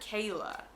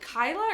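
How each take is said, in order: First: The first vowel sounds like 'ay'. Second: The first vowel sounds like 'eye'. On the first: "I've been pronouncing it Kayla" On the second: "it can be pronounced, in my opinion, Kyla or Kayla"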